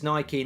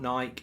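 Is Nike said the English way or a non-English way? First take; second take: English; non-English. First: It is said with the English pronunciation. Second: It is said with a non-English pronunciation. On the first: This is the correct name as used in England. The speaker calls it right. "It's Nike, We call it Nike in England" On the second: This is how it is said outside England. The speaker calls it wrong. "not Nike"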